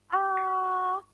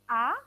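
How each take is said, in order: First: The pitch stays high and level. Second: The pitch rises from middle to high. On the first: "itu mendatar" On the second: "dia naik"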